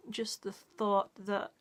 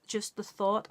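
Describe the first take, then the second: First: Slow, hushed whisper, choked with feeling. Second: Said in the usual way. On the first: Real, not acted. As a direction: let it drop to a slow whisper as the thought hits. Emotional talk about a mother.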